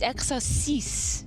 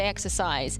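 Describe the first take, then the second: First: The word is said with a French pronunciation. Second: The word is said with an English pronunciation. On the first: The speaker calls it right. "Scorny gave us a correct pronunciation" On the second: The speaker calls it wrong. "I would say exercise"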